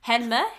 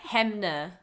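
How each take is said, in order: First: "Hanmer" said HEN-muh, questioning; n before m in "Hanmer", rising at the end; testing pronunciation. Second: "Hanmer" said HEM-nuh; alternative pronunciation. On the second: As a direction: swap "Hanmer" to m before n. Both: Shown as a demonstration. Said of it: "I'm pretty sure it's Hamner".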